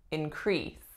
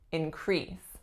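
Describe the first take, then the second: Both takes have the same delivery.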